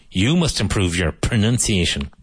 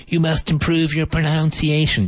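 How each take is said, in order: First: "pronunciation" with nun in a plain reply; correct reply. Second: High mock teacher voice saying "pronunciation" with noun; squeaky mock teacher, wrong "pronunciation"; imitating the teacher. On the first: Shown as a demonstration. Student correcting the teacher with proper pronunciation. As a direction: answer back using the correct nun sound. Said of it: "you can say". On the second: Learner mocking the teacher who mispronounces, squeaky high. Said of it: "if your English teacher says to you".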